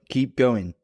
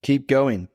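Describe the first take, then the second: No difference in how they are said.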